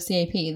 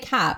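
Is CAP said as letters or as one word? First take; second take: letters; word. First: It is spelled out as separate letters. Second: It is said as one word, cap. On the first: It is treated as a plain acronym. The speaker calls it wrong. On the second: It allows puns on the word cap. The speaker calls it right.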